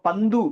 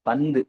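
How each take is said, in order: First: The final u vowel is full and long. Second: The final u vowel is short and reduced. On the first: The speaker calls it wrong. "அப்படியா சொல்றோம்? இல்ல" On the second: The speaker calls it right. "ஊ வந்து கம்மியா ஒலிக்கும்"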